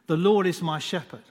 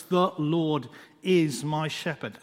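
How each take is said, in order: First: Said in the usual way. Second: Slow, measured words with room between them; slow, prayerful reading of the verse. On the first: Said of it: "have a look at those five words". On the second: Shown as a demonstration. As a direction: read it slowly and let each word land. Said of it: "as you read them slowly".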